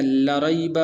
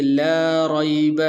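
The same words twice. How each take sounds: First: لا ریب with the لا kept short and unstretched; wrong short reading. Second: لا ریب with the لا held long and slow; correct lengthened reading. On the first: Teacher showing students a common mistake, short لا in لا ریب. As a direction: clip the لا of لا ریب short, as some readers wrongly do. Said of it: "بعض حضرات اس کو اس طرح پڑھتے ہیں". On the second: Teacher showing students the right long لا in لا ریب. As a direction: stretch the لا in لا ریب slowly, the right way. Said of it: "لمبا کر کے پڑھیں گے". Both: Shown as a demonstration.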